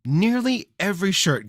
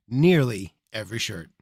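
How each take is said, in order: First: Higher, sarcastic echo; mocking repeat. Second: Said in the usual way.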